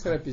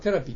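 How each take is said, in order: First: The word begins with a 'se' sound. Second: The word begins with a 'te' sound. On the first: This is the English-derived form of the word. "セラピーじゃなくて" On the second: This is the French form of the word. "向こうはテラピーって言うんですね"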